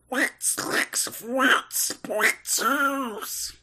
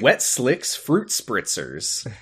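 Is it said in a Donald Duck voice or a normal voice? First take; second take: Donald Duck; normal. First: It is said in a Donald Duck voice. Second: It is said in his normal voice.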